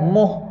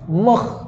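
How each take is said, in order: First: It ends in a soft breathy h. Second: It ends in a raspy throat sound. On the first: The speaker calls it wrong. "dia bukan muh" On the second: The speaker calls it right. "kha keluar daripada halqum kita"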